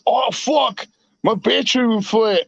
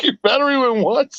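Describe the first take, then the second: First: Imitated New Zealander with squeezed vowels; New Zealand accent. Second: Said in the usual way. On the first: Friend complaining about his battery, imitated New Zealand accent. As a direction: mimic a Kiwi friend's accent. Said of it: "real deep New England accent ... New Zealand accent". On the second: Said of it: "You're like".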